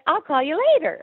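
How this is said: It sounds cheerful and friendly.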